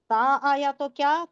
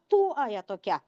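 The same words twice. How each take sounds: First: "تا" with a long open aa; teacher quizzing on the ending "تا"; contrasting ending "تا". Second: "تو" with a long oo, lower; teacher quizzing on the ending "تو", pitched lower; contrasting ending "تو". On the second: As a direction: ask it with "تو" as too, oo not aa. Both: Shown as a demonstration. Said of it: "یہ difference معلوم ہے؟".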